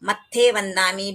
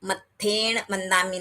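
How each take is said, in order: First: The first word is shortened to matthe. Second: The first word is contracted to matthena. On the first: "भी नहीं है" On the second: "नहीं है"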